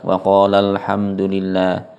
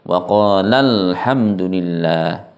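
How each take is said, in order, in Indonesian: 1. Dibaca datar, tanpa tekanan. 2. Dibaca dengan tekanan pada qala. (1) "dibaca datar" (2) "maka harus dinaberkan"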